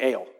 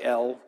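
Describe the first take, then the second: First: The vowel is a long 'ay' sound. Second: The vowel is a short 'eh' sound. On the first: The speaker calls it right. "with more of an A sound than an E" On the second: The speaker calls it wrong. "it looks like El"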